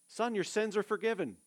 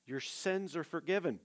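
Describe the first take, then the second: First: Son, your sins are forgiven said higher and firmer; higher, emphatic repeat. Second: Said in the usual way. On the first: Shown as a demonstration. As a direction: proclaim the words of forgiveness. Preacher repeats Jesus's line.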